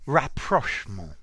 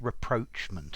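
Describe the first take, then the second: First: The word has a French-style pronunciation. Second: The word has an English-style pronunciation. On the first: "I would prefer the French, French pronunciation" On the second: "I have heard this pronounced rapprochement as well, so I think that's also possible"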